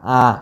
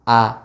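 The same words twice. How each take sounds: First: The vowel is nasal, with air through the nose. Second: The vowel is oral, with no air through the nose. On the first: The speaker calls it wrong. "masih keluar dari hidung" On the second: The speaker calls it right. "tidak ada suara atau nafas yang keluarnya dari hidung"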